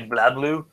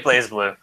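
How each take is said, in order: First: The first part sounds like 'blah' or 'blahz'. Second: The first part sounds like 'blaze'. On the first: This is how the Japanese trailers say it. "I often hear Japanese trailers say blah blue" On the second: This is how the speaker himself says it. "I say Blaze Blue"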